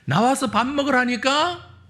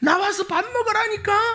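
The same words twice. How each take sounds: First: The voice is at a lower pitch. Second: The voice is at a higher pitch.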